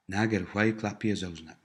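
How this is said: It is said with statement intonation.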